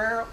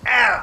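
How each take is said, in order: First: Said in the usual way. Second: "arrow" punched out as "AIR-uh"; loud, corrective "arrow" without the oh ending; folksy pronunciation of arrow. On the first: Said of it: "it's not acorn or arrow". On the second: Shown as a demonstration. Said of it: "it's arrow".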